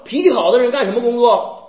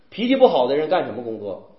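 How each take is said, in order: First: 气 in 脾气好的人 hit hardest, higher and louder; stress on 气. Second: 不 in 脾气不好的人 hit hardest, falling; stress on 不. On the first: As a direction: push 气 so 好 stands without 不. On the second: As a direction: punch the 不 to set it against 好. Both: Shown as a demonstration.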